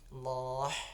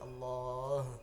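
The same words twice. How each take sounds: First: The h is harsh and breathy. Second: The h is deep and heavy in the throat. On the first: The speaker calls it wrong. "Allah salah" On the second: The speaker calls it right. "tapi Allah ya"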